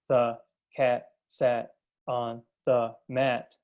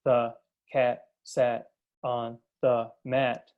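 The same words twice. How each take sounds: First: Each word is read separately, one at a time. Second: The same.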